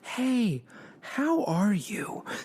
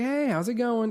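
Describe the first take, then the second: First: The greeting sounds warm and sincere. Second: The greeting sounds quick and casual.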